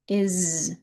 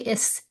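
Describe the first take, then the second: First: The word ends with a buzzing z sound. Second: The word ends with a hissing s sound. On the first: The speaker calls it right. "It's actually a z sound" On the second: The speaker calls it wrong. "don't say is"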